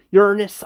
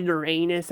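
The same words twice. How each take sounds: First: Uranus said YUR-nus, stress up front; corrected pronunciation. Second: Uranus said yer-AY-nus, stress in the middle; rejected pronunciation. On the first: Settling on the planet's name, Uranus as a louder YUR-nus. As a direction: punch the first syllable of Uranus, YUR-nus, no long AY. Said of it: "It's called, uh, Ur-, Uranus". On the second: Correcting own word for the planet, Uranus as yer-AY-nus. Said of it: "It's not called Uranus". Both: Shown as a demonstration.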